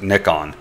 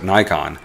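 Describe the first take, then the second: First: The brand name is said the Japanese way. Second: The brand name is said the American way. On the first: "they actually pronounce it Nikon" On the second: "that's how we pronounce it"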